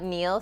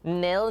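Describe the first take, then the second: First: The syllable sounds like 'neel'. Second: The syllable sounds like 'nil'. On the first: The speaker calls it wrong. "not Neil" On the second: The speaker calls it right. "Nil, not Neil"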